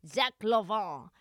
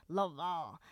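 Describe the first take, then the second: First: Zach Lavin with French luh-vahn ending, slowed. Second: LaVine said French, luh-vahn; mock French Lavin, nasal end; Frenchified Lavin. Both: Shown as a demonstration. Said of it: "does sound a little French".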